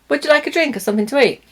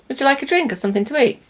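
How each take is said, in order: No difference in how they are said.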